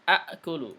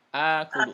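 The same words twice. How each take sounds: First: The first vowel is kept short. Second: The first vowel is drawn out long. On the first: "enggak panjang asalnya" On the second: "itu dipanjangkan makanya"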